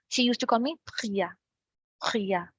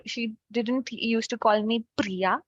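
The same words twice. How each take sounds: First: "Priya" with a guttural French R from the throat. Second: Said in the usual way. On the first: Shown as a demonstration. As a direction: say "Priya" with the R rasped in the throat, close mouth. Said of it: "They speak with a very close mouth". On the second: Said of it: "like we do in English".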